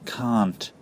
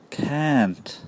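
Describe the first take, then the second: First: It is said in a British accent. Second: It is said in a longer American accent. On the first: "can't is normally pronounced can't in British English, like Genghis Khan plus t" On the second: "Americans often say can't. It's much longer"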